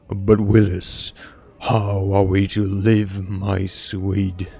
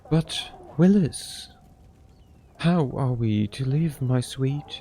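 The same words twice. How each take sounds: First: The voice is put on deep and masculine. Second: The voice is not put on as deep. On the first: The speaker calls it right. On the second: The speaker calls it wrong.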